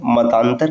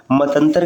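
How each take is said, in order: First: मतांतर with long "taan"; correct form. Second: मतंतर with short "tan"; wrong form. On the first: Teacher giving the correct form, long vowel in मतांतर. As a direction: say मतांतर as "mataantar". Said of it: "ज़्यादा शुद्ध होता है". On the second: Teacher citing the rejected form, short vowel in मतंतर. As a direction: say मतंतर as "matantar". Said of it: "कहना अशुद्ध है". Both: Shown as a demonstration.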